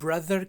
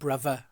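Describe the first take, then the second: First: The middle consonant is a th sound. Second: The middle consonant is a v sound. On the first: "ब्रदर के अंदर जो टी एच है" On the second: "वो उसको कहेंगे ब्रदर"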